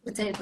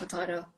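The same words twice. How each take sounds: First: "Potato" with AY, as po-TAY-to; pronunciation variant. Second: "potato" with AH, as po-TAH-to; alternative pronunciation. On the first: Pilot shrugging off pronunciation, "Potato" as po-TAY-to. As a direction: say "Potato" with a long AY. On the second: Pilot shrugging off pronunciation, "potato" as po-TAH-to. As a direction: say "potato" with an open AH. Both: Shown as a demonstration. Two pronunciations of one word contrasted.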